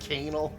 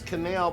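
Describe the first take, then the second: First: The word rhymes with 'anal'. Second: The word does not rhyme with 'anal'. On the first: "I'm still gonna pronounce it like canal, like anal" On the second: "I know the word is canal"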